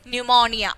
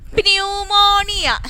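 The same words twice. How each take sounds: First: The word begins with a silent P. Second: The word begins with a sounded P. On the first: The speaker calls it right. "don't pronounce the letter P" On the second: The speaker calls it wrong. "it was in a different uh, way he pronounced this pneumonia"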